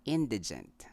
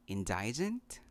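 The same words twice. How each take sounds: First: "indigent" as IN-dih-junt; short middle i in "indigent": IN-dih-junt; correct pronunciation. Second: "indigent" as in-DYE-jent; long i, stressed middle in "indigent"; mispronunciation. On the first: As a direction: stress the first syllable of "indigent": IN. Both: Shown as a demonstration. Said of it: "The correct way to say this".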